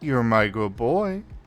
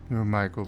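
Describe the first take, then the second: First: It is said louder than before. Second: It is said at a normal, quieter volume.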